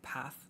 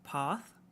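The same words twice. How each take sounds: First: It is said in a northern English accent. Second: It is said in a southern English accent. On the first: "That's like a northern England, Midlands to North England" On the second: "That's like southern England"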